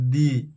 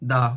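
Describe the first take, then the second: First: The vowel is a long 'ee' sound. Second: The vowel is a short 'uh' sound. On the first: It comes before a vowel. "ভায়ের আগে দি" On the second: It comes before a consonant. "কনসনের আগে দা"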